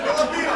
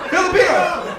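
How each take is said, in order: First: Filipino, high squeak; scene: correcting the crowd, high pitch. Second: Filipino called out. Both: Shown as a demonstration.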